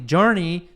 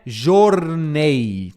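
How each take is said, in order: First: "journey" as JUR-nee; "journey" with English j and r, ending "nee"; correct English "journey". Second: "journey" misread as "zhor-NAY"; drawn-out "journey" as Portuguese-sounding "jornei"; wrong "journey". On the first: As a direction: stress the first syllable of "journey", ending in "ee". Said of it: "Cuidado aqui". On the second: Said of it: "não é journey". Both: Shown as a demonstration.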